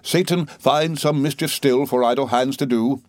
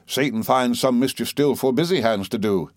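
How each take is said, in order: First: Verse recited in time, IDLE HANDS; measured quotation. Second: Quoted line with BUSY as the changed word; stress on BUSY. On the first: Doctor quoting Doctor Watts to the boy, rhythmic recitation of "idle hands". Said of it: "moving his head to the time of his quotation". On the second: Mister Wickfield rewording Doctor Watts, stress on "busy". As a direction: lean on "busy" to correct the saying. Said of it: "he might have written with as much truth". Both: A narrator's reading.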